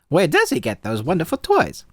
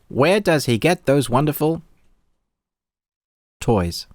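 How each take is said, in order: First: It is said in a put-on character voice. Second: It is said in the speaker's ordinary voice. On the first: The speaker calls it right. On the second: The speaker calls it wrong.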